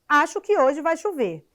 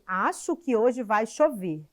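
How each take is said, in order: First: It is said as an emotional exclamation. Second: It is said as a calm plain statement.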